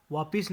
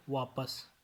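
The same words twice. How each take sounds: First: वापिस with i after p; mispronunciation. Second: Said in the usual way. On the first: Shown as a demonstration. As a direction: say vaa-PIS for वापिस. (वापिस, प पर इ) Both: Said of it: "नहीं".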